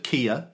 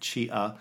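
First: It is one word starting with a k sound. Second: It is one word starting with a ch sound. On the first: This is the Greek way of saying it. "that's how the Greeks would have pronounced it" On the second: This is the Italian way of saying it. "Or in Italian, it'd be Chia"

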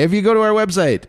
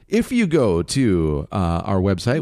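First: It is said in a plain, normal speaking voice. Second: It is said in a put-on radio announcer voice.

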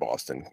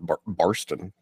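First: It is said without an R after the first vowel. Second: It is said with an R after the first vowel.

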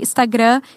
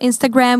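First: It is said with a Portuguese accent. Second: It is said with an English accent.

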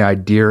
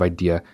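First: An extra consonant sound is added at the end. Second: The word ends cleanly on a vowel sound. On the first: This is a regional way of saying it. The speaker calls it wrong. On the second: This is the standard way of saying it. The speaker calls it right.

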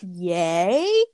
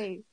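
First: It is said as a question, rising. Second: It is said as an excited exclamation, falling.

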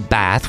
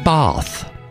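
First: Bath is said with an American accent. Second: Bath is said with a British accent. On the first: This is the pronunciation to avoid. The speaker calls it wrong. "We don't say bath" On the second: This is the proper pronunciation. The speaker calls it right. "we say bath"

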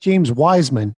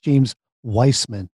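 First: The surname's first syllable sounds like 'wise'. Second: The surname's first syllable sounds like 'vice'. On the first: The speaker calls it wrong. "Just make sure it's not James Wiseman" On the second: The speaker calls it right. "It's James Weissman"

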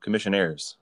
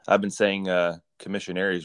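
First: The word ends with an "-aires" sound. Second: The word ends with an "-aries" sound. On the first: The speaker calls it right. "So commissionaires" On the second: The speaker calls it wrong. "I've been saying commissionaries wrong"

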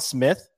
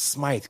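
First: The vowel is short, as in 'with'. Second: The vowel is long, as in 'scythe'. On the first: The speaker calls it wrong. "I'm going to fuck up the pronunciation here" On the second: The speaker calls it right. "It's Smythe"

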